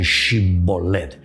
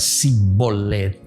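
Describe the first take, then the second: First: The word begins with a sh sound. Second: The word begins with a plain s sound. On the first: This is how the outsiders say it. "ellos pronuncian Shibolet" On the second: This is how the locals say it. "En vez de pronunciar Sibolet"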